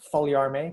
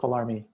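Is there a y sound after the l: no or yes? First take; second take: yes; no. First: The l is followed by a y sound. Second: The l is plain with no y sound. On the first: This is the fully authentic Filipino Spanish form. "if you are wanting to make it one hundred percent authentic" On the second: This is the simplified everyday form. "I just go for Falarme because it's simplest"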